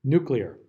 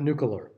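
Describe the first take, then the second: First: Nuclear said as noo-klee-er; correct nuclear. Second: Nuclear said as nook-yuh-ler, extra syllable; the mistaken nook-yuh-ler for nuclear; wrong nucular. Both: Shown as a demonstration. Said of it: "Not nuclear".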